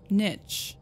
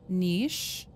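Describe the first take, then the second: First: The word does not rhyme with sheesh. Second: The word rhymes with sheesh. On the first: "the more common one" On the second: "Niche rhymes with sheesh"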